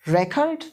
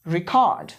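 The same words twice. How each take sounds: First: record as REK-ord, ending up; first-syllable stress. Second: record as ri-KORD, lower and falling; second-syllable stress. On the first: Teacher drills word pairs with students, record stressed as REK-ord. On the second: Teacher drills word pairs with students, record stressed as ri-KORD. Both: Shown as a demonstration. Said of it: "सारे के सारे words एक बार पढ़ लो".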